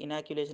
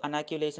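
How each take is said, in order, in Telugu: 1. ఈ పదం 'i' అచ్చుతో మొదలవుతుంది. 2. ఈ పదం 'a' అచ్చుతో మొదలవుతుంది. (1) "ఇనాక్యులేషన్ అనే చెప్పాలి" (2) "కొందరు అనాక్యులేషన్ అని కూడా అంటుంటారండి"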